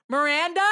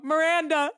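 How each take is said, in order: First: MIRANDA with a rising, questioning end; questioning name. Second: MIRANDA given as an answer, higher, without a questioning rise; stated name. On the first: Guards calling into the bathroom for the friend, MIRANDA as a question. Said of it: "So they go". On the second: Answering the guard asking her name, MIRANDA as a statement. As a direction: say MIRANDA as a plain reply. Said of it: "And I go". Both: Retold or imitated.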